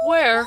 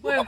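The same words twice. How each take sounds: First: High, loud excited call. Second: Said in the usual way. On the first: Real, not acted. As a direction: call out eagerly, searching. Excitedly looking for the wave.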